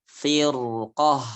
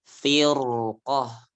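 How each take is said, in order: Both takes have the same delivery.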